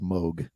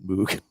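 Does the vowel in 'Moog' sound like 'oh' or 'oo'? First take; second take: oh; oo. First: The vowel sounds like 'oh', as in vogue. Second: The vowel sounds like 'oo', as in moon. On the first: The speaker calls it right. "we need to get in the habit of saying this word right. It is Moog" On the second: The speaker calls it wrong. "It is not Moog, even though it's spelled Moog"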